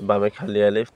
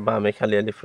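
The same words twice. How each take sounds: The two takes are said the same way.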